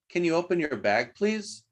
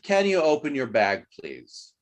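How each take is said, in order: First: The voice rises at the end. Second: The voice falls at the end. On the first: It is a question. "Here's the question, rising intonation" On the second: It is a statement. "here is a statement downward intonation"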